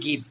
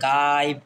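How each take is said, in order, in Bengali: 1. স্বরধ্বনিটি ছোট 'i'। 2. স্বরধ্বনিটি 'eye'-র মতো শোনায়। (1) "এটা কিন্তু গিভ" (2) "এটা কিন্তু আমরা এটা বলি না"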